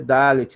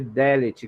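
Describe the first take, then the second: First: The first vowel is an open 'ah' sound. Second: The first vowel is an 'eh' sound. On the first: The speaker calls it wrong. "não se lê Dalet" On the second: The speaker calls it right. "mas se lê Delet"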